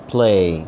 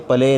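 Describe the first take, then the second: First: پلے as one syllable, p straight into l; correct pronunciation. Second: پلے split as pa-lay; wrong pronunciation. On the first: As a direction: model a long پلے with no vowel after the p. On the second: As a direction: put a short vowel between p and l in پلے. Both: Shown as a demonstration. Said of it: "یہ پلے نہیں ہے".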